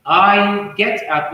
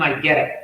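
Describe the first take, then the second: First: "get up" as two distinct words; separated words. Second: "get up" joined as "geddup"; linked words. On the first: Teacher showing the form before linking, separated words. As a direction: keep get and up apart. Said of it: "will become I get up". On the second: Teacher showing native linking, linked words. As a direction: slide get into up as one word. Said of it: "will become". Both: Shown as a demonstration.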